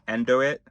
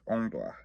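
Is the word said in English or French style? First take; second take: English; French. First: It is said as plain English 'endo it'. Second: It is said with a French-style pronunciation. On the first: "it's just the word we've been saying" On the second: "But then we pronounce it French"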